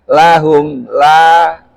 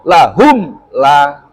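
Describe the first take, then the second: First: The m is released softly and smoothly. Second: The m is stopped off hard and abruptly. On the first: The speaker calls it right. "Tapi dibaca dengan halus" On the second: The speaker calls it wrong. "juga tidak boleh digetak"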